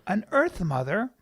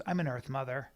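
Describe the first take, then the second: First: EARTH MOTHER repeated with a questioning rise; doubtful echo. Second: Low, soft self-description; quoted girlfriend. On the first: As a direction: query "Earth Mother" with raised ending. Echoes her words back in doubt. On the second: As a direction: imitate her stating it softly. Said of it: "and she goes". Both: Retold or imitated.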